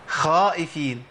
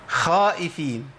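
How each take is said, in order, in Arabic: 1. الحرف الأول يُنطق مرققًا 2. الحرف الأول يُنطق مرققًا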